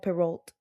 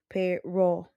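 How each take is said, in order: First: The name is pronounced the English way. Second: The name is pronounced the French way. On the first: The speaker calls it wrong. "no Perrault" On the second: The speaker calls it right. "pronunciaba Perrault de forma correcta"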